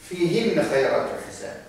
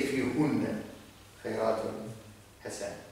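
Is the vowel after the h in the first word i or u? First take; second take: i; u. First: The vowel after the h is i. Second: The vowel after the h is u. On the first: The speaker calls it right. "So I say" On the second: The speaker calls it wrong. "I cannot say"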